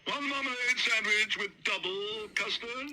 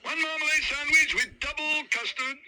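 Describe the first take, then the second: First: High, slow called-out order; calling the order. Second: Much higher, louder shout down the line; loud relayed call. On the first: Waiter calls Sir Huntley's order to the kitchen. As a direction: call it to the kitchen. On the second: Kitchen hand shouts the order onward. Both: Acted.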